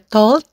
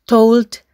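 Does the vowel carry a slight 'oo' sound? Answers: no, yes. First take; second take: no; yes. First: The vowel is a pure 'o' without 'oo'. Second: The vowel glides into a slight 'oo' sound. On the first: The speaker calls it wrong. "Bukan juga told" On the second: The speaker calls it right. "ada sedikit bunyi U"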